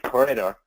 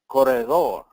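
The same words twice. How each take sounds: First: The name is said with English-style pronunciation. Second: The name is said with Spanish-style pronunciation.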